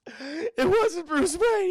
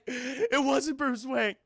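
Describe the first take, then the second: First: Very high, loud, drawn-out wail; desperate wail. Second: Slow, raised-pitch frightened denial; frightened pleading. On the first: Man recanting to Batman, desperate wail. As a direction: wail the denial slowly in panic. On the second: Man recanting to Batman, frightened pleading. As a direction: plead slowly, pitched up, fear held in. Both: Retold or imitated.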